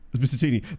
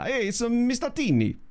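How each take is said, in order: First: It is said in his own plain accent. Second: It is said in a put-on Italian accent.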